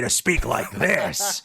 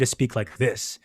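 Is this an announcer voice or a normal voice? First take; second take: announcer; normal. First: It is said in a big, booming announcer voice. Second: It is said in an ordinary everyday voice. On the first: This is the voice the client paid for. "hired me to do their announcer voice" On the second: This is the speaker's usual way of talking. "they didn't hire me to speak like this"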